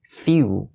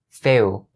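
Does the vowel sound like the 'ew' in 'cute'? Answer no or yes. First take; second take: yes; no. First: The vowel is the sharp 'ew' of 'cute'. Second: The vowel is not the 'ew' of 'cute'. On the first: The speaker calls it right. "It has to be few" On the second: The speaker calls it wrong. "don't ever say fill"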